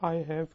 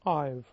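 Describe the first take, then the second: First: Both words are said fully and separately. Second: The words are run together into one short syllable.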